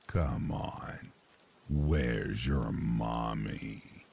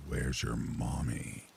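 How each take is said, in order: First: Low, very slow coaxing creep; sweet creepy coaxing. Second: Low, slow, creepy caller; a slow menacing stranger's voice; low creepy man's voice. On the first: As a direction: drawl it out, low and sinister. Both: Retold or imitated. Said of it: "a very low and creepy man's voice".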